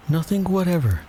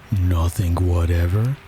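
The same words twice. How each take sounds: First: High-pitched reply, "whatever" falling at the end; Alice. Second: "whatever" drawn out, rising into a question; persistent question. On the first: Alice answers the king, high voice with falling "whatever". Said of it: "said Alice". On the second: King presses Alice for an answer, slow rising question on "whatever". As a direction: slowly press "whatever" upward as a query. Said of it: "persisted the king". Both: A narrator's reading.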